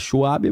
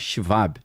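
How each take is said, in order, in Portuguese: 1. O W é falado como um W do inglês. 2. O W é falado como V. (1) "A galera fala Schwab" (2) "alemão é Schwab, ... o W tem som de V"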